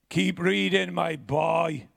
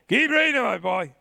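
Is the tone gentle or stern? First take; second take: stern; gentle. First: The voice sounds stern and gruff. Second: The voice sounds gentle and kind. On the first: This is how the grandfather actually said it. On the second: This is how the grandfather never said it.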